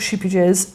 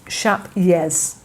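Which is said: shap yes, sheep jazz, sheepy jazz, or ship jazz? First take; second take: sheepy jazz; shap yes. First: Long ee vowel, extra ee syllable, hard J. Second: Vowel like shape, then a Y sound. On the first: The speaker calls it wrong. "it's not sheepy jazz" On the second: The speaker calls it right. "the J is a Y, ... it's more like shap"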